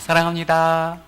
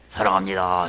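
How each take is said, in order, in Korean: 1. 목소리가 띄워지고 높고 밝아요. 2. 목소리가 낮고 무겁고 눅눅해요. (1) "이럴 땐 좀 목소리를 띄워야 돼요" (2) "사랑합니다 이렇게 하면 더 눅눅해지니까"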